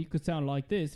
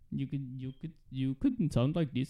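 First: It is said in an Australian accent. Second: It is said in an Indian accent. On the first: "if you're from Australia" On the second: "if you're from India"

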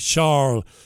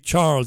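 First: The name has a French pronunciation. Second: The name has an English pronunciation. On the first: "they will say Charles" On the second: "In France, they won't say Charles"

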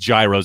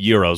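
First: The word does not rhyme with hero. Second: The word rhymes with hero. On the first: "what he calls gyros" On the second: "I call them euros. ... it sounds like hero"

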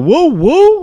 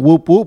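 First: Each call ends openly without a p sound. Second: Each call ends with a clear p sound. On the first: The speaker calls it right. "I leave the P off. ... it just sounds smoother" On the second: The speaker calls it wrong. "It's actually whoop whoop"

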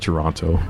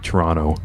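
First: The second t is clearly pronounced. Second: It is said fast and the second t is dropped. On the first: "I say Toronto" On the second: "a lot of people say it fast too, and it sounds like Toronto"

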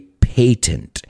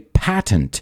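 First: The word is said in a British way. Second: The word is said in an American way. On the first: "The British say patent" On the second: "Americans say patent"

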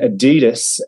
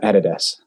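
First: Adidas is said the American way. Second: Adidas is said the Australian way.

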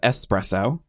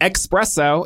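First: The word begins with an 'es' sound. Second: The word begins with an 'ex' sound. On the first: The speaker calls it right. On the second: The speaker calls it wrong.

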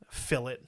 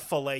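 First: The word is said the British way, like fillet. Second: The word is said the French way, like filet. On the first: The speaker calls it wrong. "as fucking Gordon Ramsay calls it" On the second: The speaker calls it right. "It's a filet, you dickhead. It's a French word"

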